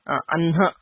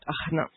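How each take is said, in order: First: The nasal sound comes before the h sound. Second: The h sound comes before the nasal sound. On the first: The speaker calls it right. "the pronunciation here is Anha" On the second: The speaker calls it wrong. "and not Ahna"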